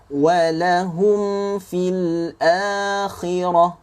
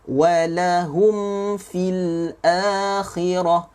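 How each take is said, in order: Both takes have the same delivery.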